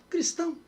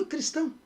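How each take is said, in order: The two takes are said the same way.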